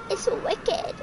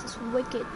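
First: Much higher, playful repeat; playful put-on high voice. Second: Said in the usual way. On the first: Gamer echoing himself at the creepy asylum, playful high voice. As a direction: echo it in a high, silly voice.

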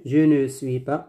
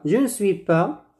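First: Je ne suis pas with a full schwa in ne; low-pitched counterexample, je ne suis pas with every syllable sounded. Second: Je ne suis pas with ne reduced to n; silent E in ne. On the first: (je ne suis pas, en prononçant le E de ne) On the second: (je ne suis pas, le E de ne muet) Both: Shown as a demonstration. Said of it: "on ne prononce pas le E".

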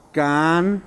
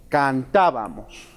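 First: Long pauses inside "Cantábamos", as if writing it; syllable by syllable. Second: Said in the usual way. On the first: Shown as a demonstration. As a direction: dictate "Cantábamos" in spaced pieces. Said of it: "para que hagamos referencia".

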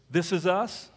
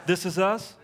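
Both takes have the same delivery.

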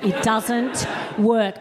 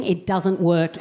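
First: Slow, each word spaced out; slow emphatic. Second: Said in the usual way. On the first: Shown as a demonstration. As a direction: drag it out to drive the point home.

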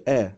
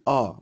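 First: Thin, front "آ" as in ant; thin A sound. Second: Thick, back "آ" as in barn; thickened A sound. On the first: Teacher showing how A before R is not said, thin vowel. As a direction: say "آ" thinly, like the vowel in cat. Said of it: "ما بيتنطقش آ، زي ant". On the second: Teacher showing the A before R, thick vowel. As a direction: make "آ" heavy, not like ant. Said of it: "لازم تتخن شوية، فبقول آ". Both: Shown as a demonstration.

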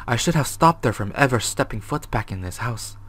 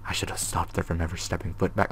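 First: Said in the usual way. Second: Hushed, voiceless read of the note; whispered reading of a scared diary. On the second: Acted. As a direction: breathe the words out like a secret.

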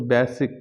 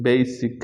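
First: বেসিক as "BESS-ik", short e; common mispronunciation. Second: বেসিক as "BAY-sik"; correct pronunciation. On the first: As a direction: say বেসিক with a flat short first vowel. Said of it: "আমরা সবসময় বলি". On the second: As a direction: glide the first vowel of বেসিক from e to i. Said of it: "সঠিক উচ্চারণ হবে". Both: Shown as a demonstration.

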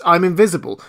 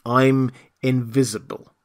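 First: Higher, louder, emphatic declaration; emphatic insistence. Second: Slow, measured statement; patient restatement. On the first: The voice explaining to Marvel, emphatic. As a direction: declare it forcefully. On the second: The voice to impatient Marvel, slow and patient. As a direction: spell it out word by word. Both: A narrator's reading.

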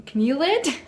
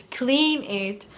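First: "clean" garbled into "cnool", high and loud; tongue-tied slip. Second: Said in the usual way. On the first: Real, not acted. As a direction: trip over "clean" as "cnool", puzzled. Stumbles on word, questions it, laughs.

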